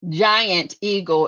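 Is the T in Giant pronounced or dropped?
pronounced. Giant is said with its T, standard style.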